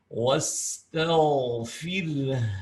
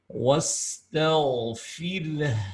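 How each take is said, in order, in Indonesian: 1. Bunyi h mengalir keluar dengan napas yang terdengar. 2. Bunyi h mengalir keluar dengan napas yang terdengar.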